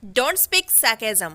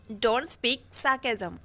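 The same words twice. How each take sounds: First: Extremely slow, word by word; slow dictation. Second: Extremely slow, softer echo; slow soft repeat. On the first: Teacher modelling the phrase, extremely slow. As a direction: stretch every word for learners. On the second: Teacher echoing the phrase softly for students. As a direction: repeat it quietly and slowly. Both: Shown as a demonstration. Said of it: "अनाप शनाप मत बोला करो".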